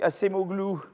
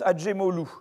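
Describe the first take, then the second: First: The c is said as an s sound. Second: The c is said as a dj sound. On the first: The speaker calls it wrong. "alors on ne prononce pas comme ça" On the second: The speaker calls it right. "ça se prononce Adjemoglu"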